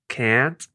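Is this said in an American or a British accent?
American. It is said with an American-style vowel. "They say aunt, can't"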